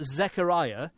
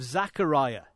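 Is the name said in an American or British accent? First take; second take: British; American. First: It is said in a British accent. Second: It is said in an American accent.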